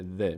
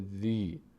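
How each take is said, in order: First: The syllable ends in a short i vowel. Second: The syllable ends in a long ee vowel. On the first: The speaker calls it wrong. "دیگه نمیشه این حرف نمیشه ذ" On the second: The speaker calls it right. "حرکت کسره تقویت میشه و صدای ای میگیره"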